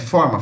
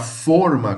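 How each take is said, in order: First: The stressed vowel is open. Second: The stressed vowel is closed. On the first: It means shape. "forma geométrica, forma de uma pessoa" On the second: It means a baking mold. "forma com som mais fechado"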